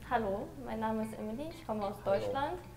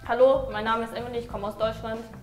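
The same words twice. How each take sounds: First: It is said in a calm, friendly way. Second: It is said in a harsh, aggressive way. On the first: "when I speak German, I don't sound aggressive" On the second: "Version two"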